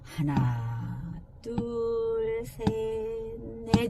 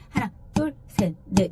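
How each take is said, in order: First: The counting is slow. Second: The counting is fast.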